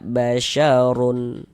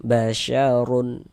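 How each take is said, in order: Both takes have the same delivery.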